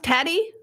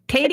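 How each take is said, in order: First: The name does not rhyme with lady. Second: The name rhymes with lady. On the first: The speaker calls it wrong. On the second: The speaker calls it right.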